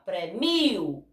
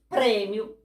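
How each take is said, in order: First: The stress is on the second syllable. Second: The stress is on the first syllable. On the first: It is the verb meaning I reward. "Paroxítona" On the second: It is the noun meaning a prize. "prêmio proparoxítona"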